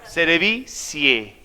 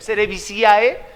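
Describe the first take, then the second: First: The final vowels merge into a single 'e' sound. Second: The final vowels are said as separate 'a' and 'e'. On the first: The speaker knows Latin pronunciation. The speaker calls it right. "ahora sí sabe" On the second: The speaker does not know Latin pronunciation. The speaker calls it wrong. "ah, este no sabe nada"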